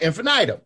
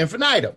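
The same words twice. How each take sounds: First: The word is said with a southern pronunciation. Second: The word is said with a southern pronunciation.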